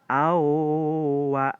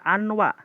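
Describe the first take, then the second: First: The n merges into the w with nasalization. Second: The n is pronounced separately before w. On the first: The speaker calls it right. "tapi dibacanya awa" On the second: The speaker calls it wrong. "bukan dibaca anwa"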